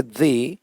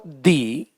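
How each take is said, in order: First: दी with a pressed, buzzed first sound, like zee; pressurised dee. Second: दी with a long ee vowel; long dee. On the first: Teacher showing the alternative, pressed दी. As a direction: press the start of दी toward a z. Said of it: "थोड़ा pressurise करके". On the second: Teacher explaining the vowel rule, long-ee दी. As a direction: stretch दी slowly, ending in ee. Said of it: "या थोड़ा pressurise करके". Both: Shown as a demonstration.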